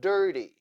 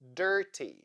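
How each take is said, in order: First: The middle consonant is a d-like flap. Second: The middle consonant is a clear t. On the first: "Now let's read it with flap T" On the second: "read these words with the sound T"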